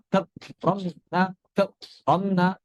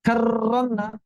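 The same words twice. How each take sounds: First: 'Karramna' chopped, r cut off with a gap; syiddah ro. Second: 'Karramna' with a long rolled r, higher; wrong over-trilled ro. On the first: Teacher shows another mistake, blocked ro. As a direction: stop dead after 'Kar' in 'Karramna'. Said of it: "Atau juga seperti syiddah". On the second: Teacher repeats the mistake, over-trilled ro. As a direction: roll on and on in 'Karramna'. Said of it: "tidak digetar-getarkan seratus persen". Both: Shown as a demonstration.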